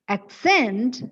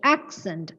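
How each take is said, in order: First: The stress is on the second syllable. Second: The stress is on the first syllable. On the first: It is used as a verb. "the stress should fall on the second syllable" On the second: It is used as a noun. "The stress should be on the first syllable"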